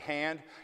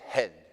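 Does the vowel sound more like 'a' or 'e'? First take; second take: a; e. First: The vowel is an open 'a' sound. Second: The vowel is closer, like an 'e' sound. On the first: This is how the speaker normally talks. "if I say hand" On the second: This is how the character talks. "he says head"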